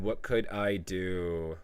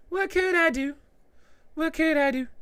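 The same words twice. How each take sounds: First: Slow, softer, lower read-out; drawn-out plea. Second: Very high, monotone put-on falsetto; mock helpless squeal. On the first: Retold or imitated. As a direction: stretch the question out slowly, letting it sink. Reads a viewer's plea, then repeats. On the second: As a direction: squeak the plea in a silly high voice. Mock repeats of viewer's plea.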